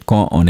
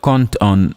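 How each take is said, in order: First: No consonant links the two words. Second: A t sound links the two words. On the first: "You would even just say con on emalad. We would still understand" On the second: "It would sound like cont on emalad"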